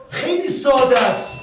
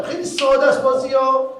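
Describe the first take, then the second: First: Slow, heavy stress on خیلی, higher and louder; slow emphatic repeat. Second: Higher and louder, hammering ساده; emphatic insistence. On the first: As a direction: spell it out word by word. (تکرار آهسته و کوبنده روی «خیلی») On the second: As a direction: insist the game is obvious. Insisting game is simple. (تأکید بلند روی «ساده») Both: Real, not acted.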